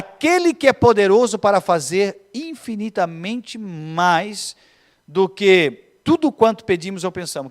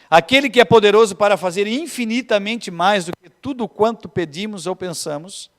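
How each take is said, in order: First: The verse is read very slowly. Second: The verse is read at a normal pace.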